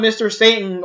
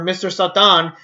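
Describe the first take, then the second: First: Said in the usual way. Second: Satan said "sah-TAHN"; Spanish-style Satan. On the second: Shown as a demonstration. Giving the Mexican dub's name, Satan said "sah-TAHN". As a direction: open "ah" vowels in Satan, stress at the end.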